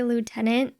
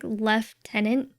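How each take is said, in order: First: The first syllable sounds like 'loo'. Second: The first syllable sounds like 'left'.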